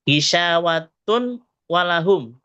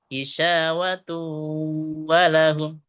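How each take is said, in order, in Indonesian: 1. Bunyi n tetap jelas sebelum w. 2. Bunyi n menyatu dengan w yang mengikutinya.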